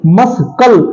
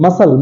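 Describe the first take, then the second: First: A k sound is heard in the middle. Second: No k sound is heard in the middle. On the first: The speaker calls it wrong. "मस्कल नहीं होता है" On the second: The speaker calls it right. "बल्कि मसल होता है"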